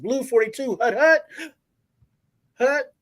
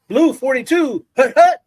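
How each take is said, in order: First: A hesitation breaks the rhythm before the last hut. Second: The counts come in a steady rhythm.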